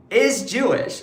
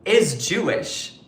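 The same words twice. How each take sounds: First: "Is Jewish" repeated higher with a falling punch; repeated "Is Jewish", pitched up and emphatic. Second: Slow stress on Jewish; pointed, slowed stress on "Jewish"; pointed emphasis. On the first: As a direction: hammer the point home. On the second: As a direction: lean hard on the word Jewish. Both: Real, not acted.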